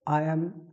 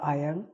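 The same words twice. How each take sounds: First: Both words are said in full. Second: The two words are contracted into one.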